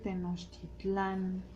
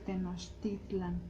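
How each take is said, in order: First: The stress is on the final syllable. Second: The stress is on the second-to-last syllable. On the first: The speaker calls it wrong. "no se dice Tenochtitlán ... no va el acento hasta el final" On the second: The speaker calls it right. "se dice Tenochtitlan, ... son palabras graves"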